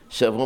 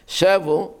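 First: The stress is on the last syllable. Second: The stress is on the first syllable. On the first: It comes from the word for taking captives. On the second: It means they returned.

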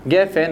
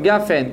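First: The first vowel is a short e sound. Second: The first vowel is a long a sound. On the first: The word stands in ordinary position. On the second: The word stands at a major pause.

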